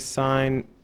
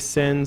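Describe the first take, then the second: First: The vowel is long, rhyming with pine. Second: The vowel is short, rhyming with pin. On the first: The speaker calls it right. "some people say sine" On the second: The speaker calls it wrong. "Some people say sin"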